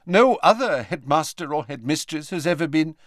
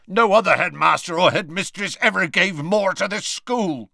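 First: Measured, higher headmistress voice; brisk headmistress. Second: Loud rough growl, cutting in. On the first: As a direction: start a formal statement. McGonagall starts, Hagrid cuts in. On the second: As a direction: growl it out over her. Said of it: "growled Hagrid". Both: Acted.

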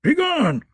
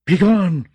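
First: High croak, much higher; croaking old crone. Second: Loud croak, much louder; croaking old crone. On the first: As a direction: croak it like a hag. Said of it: "croaked the old woman". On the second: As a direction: bark it out like a hag. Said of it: "croaked Maggie a third time". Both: A narrator's reading.

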